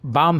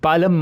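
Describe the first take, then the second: First: The word is said without an L sound. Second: The word is said with an L sound. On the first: The speaker calls it right. "ये एल silent है, तो यहाँ पे आ, बाम ही पढ़ना है" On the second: The speaker calls it wrong. "ये बालम मत पढ़िए"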